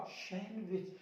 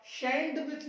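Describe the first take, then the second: First: सैंडविच with a silent D, softer; no D in सैंडविच, dropped in volume; correct pronunciation. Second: सैंडविच with the D sounded; wrong pronunciation. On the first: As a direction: say सैंडविच as "san-wich", quieter. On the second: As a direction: say सैंडविच wrongly as "sand-wich". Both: Shown as a demonstration. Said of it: "नहीं होता".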